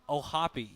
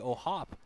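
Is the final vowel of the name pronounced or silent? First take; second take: pronounced; silent. First: The final vowel sound is pronounced. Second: The final vowel sound is dropped. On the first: The speaker calls it right. "you have to pronounce the e" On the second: The speaker calls it wrong. "I was expecting it to be Ohop"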